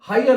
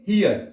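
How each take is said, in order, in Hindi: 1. स्वर 'ee' आवाज नहीं है। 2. स्वर लंबी 'ee' आवाज है। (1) "हायर नहीं पढ़ेंगे इसको" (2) "ई की आवाज में"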